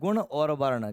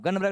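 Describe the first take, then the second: First: The phrase is said fully with every sound clear. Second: The phrase is said in a clipped, slurred form. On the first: The speaker calls it right. "वो होते क्या है, गुण और वर्ण" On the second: The speaker calls it wrong. "गन बरक नहीं होते"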